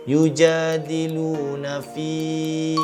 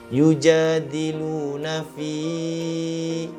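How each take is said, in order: First: The final long vowel is held for two counts. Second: The final long vowel is held beyond two counts. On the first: The speaker calls it right. "ia dibaca dengan kadar dua harakat" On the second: The speaker calls it wrong. "Elakkan daripada membacanya dengan kadar lebih daripada dua harakat"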